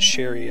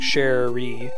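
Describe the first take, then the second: First: The R sound is short and single. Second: The R sound is held long, doubled. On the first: "as opposed to" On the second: "Double consonant's helpful if it's like intended that you pronounce it by like saying Sherry"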